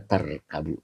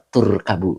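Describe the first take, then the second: First: The first vowel sounds like 'a'. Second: The first vowel sounds like 'u'. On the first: The speaker calls it wrong. "Tarkabu apa?" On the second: The speaker calls it right. "Yang dibaca yang benar adalah la turkabu"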